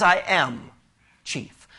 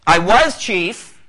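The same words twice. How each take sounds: First: "am" held level, "chief" dropped almost to a breath; stress on AM. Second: "was" stretched slow and louder, set against "am"; stress on WAS. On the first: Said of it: "He didn't say, "I was chief". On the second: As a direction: lean hard on "was" in "I was chief", slowly. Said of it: "He says, "I am chief". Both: Shown as a demonstration.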